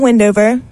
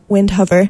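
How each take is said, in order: First: The h sound in the name is silent. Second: The h sound in the name is pronounced. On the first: The speaker calls it right. "H is silent" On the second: The speaker calls it wrong. "not Windhover. I made that mistake as well"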